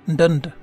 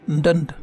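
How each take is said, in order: Both takes have the same delivery.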